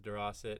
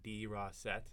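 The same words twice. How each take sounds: First: The name is said at a normal, casual pace. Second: The name is said slowly, each syllable sounded out. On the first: "my dad says DeRossett" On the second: "he's trying to, like, really sound it out for people"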